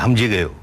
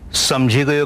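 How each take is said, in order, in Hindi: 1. पहला शब्द h ध्वनि से शुरू होता है। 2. पहला शब्द s ध्वनि से शुरू होता है। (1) "वहां कहेंगे हमझी गयो, सै का है हो गया" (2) "इस ओर समझी गयो कहेंगे"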